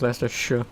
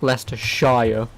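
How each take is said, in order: First: The ending is reduced to a short 'sher' sound. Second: The ending is a full 'shire', rhyming with fire. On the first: This is how locals say it. The speaker calls it right. "But no, it is just Leicestershire" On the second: It copies how the word shire is said alone. The speaker calls it wrong. "so I understand saying Leicestershire"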